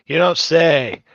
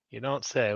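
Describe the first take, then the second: First: Louder, exasperated mock surprise; loud sarcastic outburst; loud sarcasm. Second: Muttered dry sarcasm under breath; low, dry, sarcastic aside; quiet sarcasm. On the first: Repeated sarcastic reaction, now loud. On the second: Repeated sarcastic reaction. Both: Real, not acted.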